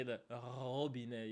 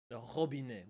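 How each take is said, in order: First: Robinet with a long, slow rattled R at the start; exaggerated rolled R. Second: Robinet with a short throaty French R. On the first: French speaker showing what we wouldn't say, exaggerated rolled R. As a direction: drag out the R of robinet as if rolling it. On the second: French speaker giving a word that starts with R, French R. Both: Shown as a demonstration. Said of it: "We wouldn't say".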